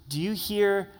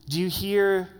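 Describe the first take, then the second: Both takes have the same delivery.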